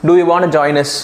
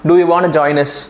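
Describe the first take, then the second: First: 'Want to' is said in full. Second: The same.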